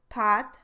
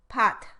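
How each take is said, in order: First: The final t is released without a puff. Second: The final t is released with a puff. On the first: "released but not aspirated" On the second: "it's unusual to produce an aspirated stop in the syllable coda like this"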